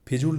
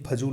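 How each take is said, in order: First: The first vowel is i. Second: The first vowel is a. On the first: The speaker calls it wrong. "नहीं" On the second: The speaker calls it right. "होता है"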